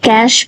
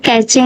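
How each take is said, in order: First: It is said as one syllable, like 'cash'. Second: It is said with two syllables, ending 'chay'. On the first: The speaker calls it right. "इसको actually कैश पढ़ते हैं" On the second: The speaker calls it wrong. "अब इसको कैचे नहीं पढ़ते"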